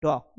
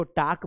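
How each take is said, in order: First: टॉक with a rounded "aw" vowel, as "tawk"; "tawk" for टॉक, not "taak"; correct pronunciation of टॉक. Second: टॉक said with a long "aa", as "taak"; mispronounced टॉक. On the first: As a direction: model टॉक clearly with an "aw" sound. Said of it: "this is talk". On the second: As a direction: say टॉक wrongly with an open "aa" vowel. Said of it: "टॉक का pronunciation ही गलत करते हैं". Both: Shown as a demonstration.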